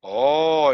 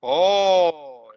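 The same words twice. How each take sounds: First: Short lower oh of amazement; a quick amazed oh. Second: Drawn-out oh of wonder; amazed Spanish oh. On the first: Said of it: "in Spanish". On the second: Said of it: "when you are amazed, you say". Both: Shown as a demonstration.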